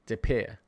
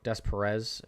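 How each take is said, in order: First: The name is said the French way. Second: The name is read out English-style, as spelled. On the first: The speaker calls it right. "it's French? Oh, duh" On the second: The speaker calls it wrong. "if that's how you uh, pronounce that"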